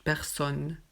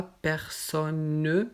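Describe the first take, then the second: First: Personne said pɛʁsɔn, with the final E silent; correct pronunciation. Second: Personne with the final E sounded, pɛʁsɔnø; wrong pronunciation. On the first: Teacher giving students the right way, slow and silent e. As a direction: slowly say personne with no final vowel. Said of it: "non, juste personne". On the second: Teacher showing students the wrong way, final e voiced. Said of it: "On ne dit pas personne". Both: Shown as a demonstration.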